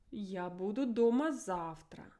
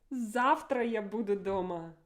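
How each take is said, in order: First: Said in the usual way. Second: Завтра said first, with a strong pitch accent; emotive stress on Завтра. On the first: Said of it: "This is a neutral mode". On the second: Shown as a demonstration. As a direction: lean hard on Завтра, glad to be home. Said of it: "Imagine I'm so excited to be at home tomorrow".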